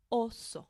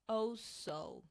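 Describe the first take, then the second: First: "oso" two short pure O sounds; correct oso. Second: "Oh, so" with gliding English O; wrong English oso. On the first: Shown as a demonstration. Teacher gives the right Spanish version. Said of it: "one short sound". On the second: Retold or imitated. Teacher imitates English speakers' mistake. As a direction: split "Oh, so" with a diphthong. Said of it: "say it like this".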